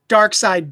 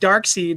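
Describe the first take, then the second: First: The name ends with a 'side' sound. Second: The name ends with a 'seed' sound. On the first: The speaker calls it right. "calling dark side" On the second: The speaker calls it wrong. "dark seed like some kind of numbskull"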